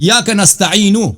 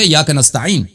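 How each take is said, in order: First: The last word ends with a short u vowel. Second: The last word ends on a bare consonant. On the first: The recitation continues past this word. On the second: The recitation stops at this word.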